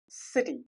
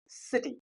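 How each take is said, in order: Both takes have the same delivery.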